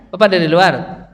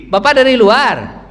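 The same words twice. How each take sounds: First: Said in the usual way. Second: Slow, higher and louder on Bapak dari luar; emphatic. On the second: Shown as a demonstration. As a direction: stress the whole phrase Bapak dari luar, drawn out. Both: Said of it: "ya kan?".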